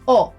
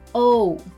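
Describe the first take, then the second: First: The vowel stays steady with no added sound. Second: The vowel is rounded and glides into another sound. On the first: The speaker calls it right. "Say O instead" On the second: The speaker calls it wrong. "try to avoid that English touch of yours and refrain from rounding it with your lips or adding that extra sound at the end"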